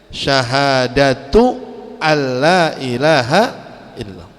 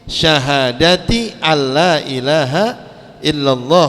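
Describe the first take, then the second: First: The first word ends with a u vowel. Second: The first word ends with an i vowel. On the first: The word follows a number in the nominative case. "Karena khamsatunnya marfu" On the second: The word follows a number in the genitive case. "Itu kalau khamsinnya majrur"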